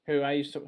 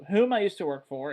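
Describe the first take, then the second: First: Said in the usual way. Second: "whom" leaned on as a self-correction; stress on whom. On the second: Real, not acted. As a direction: correct yourself, punching "whom".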